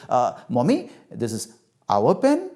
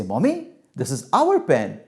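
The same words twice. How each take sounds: First: Unsure answer, rising like a question; testing the answer with a final lift; tentative child. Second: Said in the usual way. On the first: Acted. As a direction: offer it hesitantly, checking for mother's approval. Child tests a new answer.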